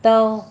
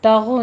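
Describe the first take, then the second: First: तग stopped dead with a heavy ग, louder; right version. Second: तगो with an added ओ after the ग; wrong version. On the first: Teacher gives the correct stop. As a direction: stop hard on the ग of तग. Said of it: "बस ये पुर होके यहाँ पे stop करना है". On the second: Teacher shows the wrong ending. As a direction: let an ओ trail after तगो. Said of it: "तगो नहीं कहना". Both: Shown as a demonstration.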